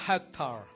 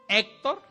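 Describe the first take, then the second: First: The H at the start is sounded. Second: The H at the start is silent. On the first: This is the English way of saying it. "Y en inglés Hector. ... pero aquí sí habla" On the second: This is the Spanish way of saying it. "En México la H es muda"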